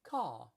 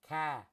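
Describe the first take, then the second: First: English accent, with no final r. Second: Boston accent, with the r dropped. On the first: "In England, it's caw" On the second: "Boston, ca"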